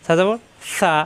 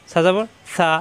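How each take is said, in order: Both takes have the same delivery.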